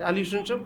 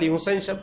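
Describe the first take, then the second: First: The name is said as Hossen. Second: The name is said as Husain. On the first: The speaker calls it wrong. "হোসেন তো কোনো শব্দ নাই" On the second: The speaker calls it right. "হজরত বলেন"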